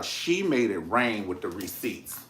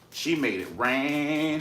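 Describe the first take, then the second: First: Said in the usual way. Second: "She made it rain" slowed, stretched and stressed on "she"; drawn-out emphatic "She made it rain"; emphatic repeat. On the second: Shown as a demonstration. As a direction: lean on each word of "She made it rain".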